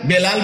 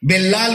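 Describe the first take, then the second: First: The middle l sound is single. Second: The middle l sound is doubled. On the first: The speaker calls it right. "বেলাল বলতে জানে" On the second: The speaker calls it wrong. "বেল্লাল বলবে"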